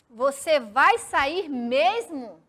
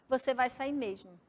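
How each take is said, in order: First: It is said as a question, rising at the end. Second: It is said as a statement, falling at the end. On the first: It asks whether the person is really leaving. "Aquela pressão mais forte na última palavra, dando aquela entonação de pergunta" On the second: It states that the person is really leaving. "como se fosse um ponto final, eu ia ler como uma frase afirmativa"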